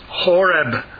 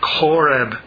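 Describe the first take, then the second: First: It begins with a plain h sound. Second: It begins with a throaty ch sound.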